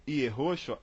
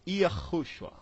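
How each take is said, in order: First: YEHOSHUA as ye-HO-shua; Portuguese-style Yehoshua; reading as written. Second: YAHUSHUA as yuh-KHOO-shua; Yahushua, first vowel dulled to 'uh'; American reading. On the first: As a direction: say Yehoshua with clear E and O. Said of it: "mesmo escrevendo Yehoshua". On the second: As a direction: say Yahushua with closed 'â' and rasped H. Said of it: "eles vão ler". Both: Shown as a demonstration.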